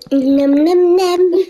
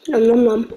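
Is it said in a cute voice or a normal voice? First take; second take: cute; normal. First: It is said in a cute voice. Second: It is said in a normal voice.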